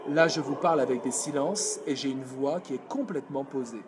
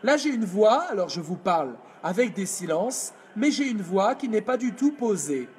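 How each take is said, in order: First: Lower, grounded and steady; calm anchored voice; placed voice. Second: Unplaced voice. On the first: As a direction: drop it down and settle. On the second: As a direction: talk up in the throat. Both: Shown as a demonstration. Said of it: "Je vous fais les deux voix".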